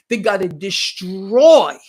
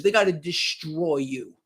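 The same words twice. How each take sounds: First: Slow, louder, "destroy" hammered hard; stress on destroy. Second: Said in the usual way. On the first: Acted. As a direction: lean into "destroy", slowly and louder. Repeated phrase, hammered home.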